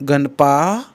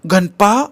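First: Ganapa said firmly, a bit louder, with a rising warning end; Ganapa as a short stern rebuke, not a cry; scolding. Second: Ganapa shouted loud and high with a rising end; Ganapa called out loud and high; startled shout. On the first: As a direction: warn Ganapa off in a sharp scold. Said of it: "सुरंगानं त्याला दाटलं". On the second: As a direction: yell Ganapa in a startled cry. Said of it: "तशी ती ओरडली". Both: A narrator's reading.

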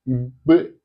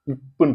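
First: இப்பு with a voiced b, as "ibb"; voiced B sound. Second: இப்புன்னு with an unvoiced pp, as "ippunnu"; hard P sound. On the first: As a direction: buzz the lips on the b in இப்பு. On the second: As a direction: pop the pp in இப்புன்னு without buzzing. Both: Shown as a demonstration. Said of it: "ரெண்டு பி இருக்கும்".

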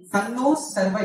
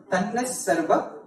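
First: Tanno Sarva with a clear O ending Tanno; uncombined form. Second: Tanna Sarva run together, A replacing O; combined form. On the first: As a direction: say Tanno and Sarva as two words. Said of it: "Tanno Sarva is coming together". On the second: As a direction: join Tanna onto Sarva as one word. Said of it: "therefore it becomes Tanna Sarva". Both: Shown as a demonstration.

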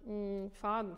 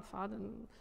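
First: Said in the usual way. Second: Faden said softer, on a thin stream of air; thin thread of breath. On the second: Shown as a demonstration. Teacher showing the student a thin thread of breath, softer. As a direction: let Faden float out soft and thin. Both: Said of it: "sehr dünner".

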